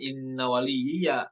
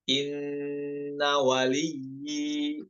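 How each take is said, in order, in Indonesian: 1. Kata ini diakhiri dengan vokal a yang jelas di akhir. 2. Kata ini diakhiri tanpa vokal a di akhir. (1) "bukan inna waliyya" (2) "ketika waqaf dibaca sukun"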